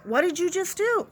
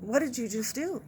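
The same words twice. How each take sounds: First: Raised, incredulous mock question; imitating a disbelieving nurse. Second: Hushed, stunned question; a quiet, disbelieving stare put into words; imitating a stunned doctor. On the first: Nurse's glare at the nurse who shut the door, voiced as a higher, disbelieving question. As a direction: sell the nurse's stare with a higher, scolding pitch. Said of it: "he's looking at me going". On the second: ER doctor silently judging the nurse, voiced as a hushed, stunned question. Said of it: "looking at me with a look of just".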